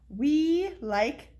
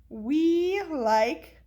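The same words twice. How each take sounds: The two takes are said the same way.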